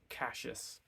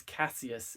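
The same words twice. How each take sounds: First: Cassius said with a "sh": KASH-us; "sh" in place of "s" in Cassius; two-syllable Cassius, KASH-us; fourth-book pronunciation. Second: Cassius said with an "s": KASS-ee-us; crisp "s" in the middle of Cassius; original pronunciation. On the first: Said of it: "it becomes Cassius, which I don't like". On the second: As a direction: say Cassius in three syllables, KASS-ee-us. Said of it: "it was always Cassius". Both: Shown as a demonstration.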